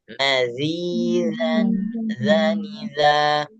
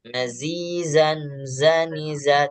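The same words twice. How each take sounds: First: The consonant is a soft voiced th sound. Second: The consonant is a buzzing z sound. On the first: The speaker calls it right. "Tapi yang benar adalah mazi" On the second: The speaker calls it wrong. "Tidak, itu pembacaan yang masih keliru"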